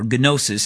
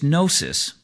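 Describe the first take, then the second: First: It is said with a Greek-style pronunciation. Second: It is said with an English-style pronunciation.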